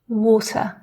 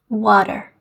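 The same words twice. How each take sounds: First: The middle T is a clean, crisp T. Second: The middle T sounds soft, like a D. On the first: "listen to me say these words here... a really clean, crisp T sound" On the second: "an American, however, would read these words in quite a different way... more like a D sound"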